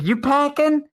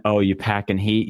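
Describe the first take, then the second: First: High-pitched, pushy mock question; imitated confrontational stranger. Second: Said in the usual way. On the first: Stranger repeating himself to the friend, high imitated challenge. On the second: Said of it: "then he understood he meant".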